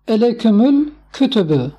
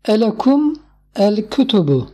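First: The words are linked into one flowing phrase. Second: The words are read separately, without linking.

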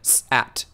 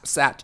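First: The sounds are said slowly and apart. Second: The sounds are said quickly and run together. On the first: "you might use a speed method" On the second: "You start speeding those three sounds up"

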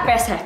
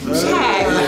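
First: The name is said as two syllables, 'pe-sek'. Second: The name is said as one syllable, 'shack'. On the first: This is the actual family name. The speaker calls it right. "Ternyata Pesek" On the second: This is how the stylized spelling first looked. The speaker calls it wrong. "Pertama kali aku baca mungkin Shack"

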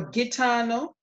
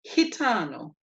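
First: The G does not sound like an H. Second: The G sounds like an H. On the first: The speaker calls it wrong. "you're going to be tempted to say gitano" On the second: The speaker calls it right. "It's actually gitano"

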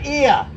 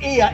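First: The word begins with no h sound. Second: The word begins with an h sound. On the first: The speaker calls it right. "We don't pronounce the H" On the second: The speaker calls it wrong. "No, not ear"

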